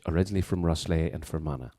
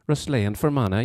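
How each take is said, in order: First: Said in the usual way. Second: Lilting Fermanagh accent; playful demonstration of a Fermanagh accent. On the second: Shown as a demonstration. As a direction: put on a sing-song Fermanagh lilt. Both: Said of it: "that was my Fermanagh accent".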